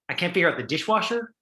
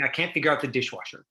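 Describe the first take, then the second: First: It is said as a question. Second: It is said as a flat statement.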